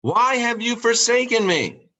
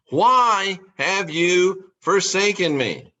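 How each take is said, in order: First: High, pleading cry to heaven; anguished cry. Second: Slow, drawn-out echo of the cry; slow lament. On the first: Jesus crying out to God, high and pleading. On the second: Jesus repeating his cry to God, slow and mournful. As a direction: let it sink, slow and mournful. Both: Retold or imitated. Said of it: "he would cry out".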